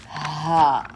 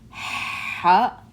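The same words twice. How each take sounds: First: ح, ha rasped from the back of the throat; ha scraped in the throat; raspy ha. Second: Ha like warm breath; breathy ha. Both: Shown as a demonstration.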